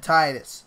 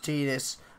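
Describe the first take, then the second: First: The name is pronounced the American way. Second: The name is pronounced the Japanese way. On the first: "in America we would pronounce it" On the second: "His name in Japanese is pronounced"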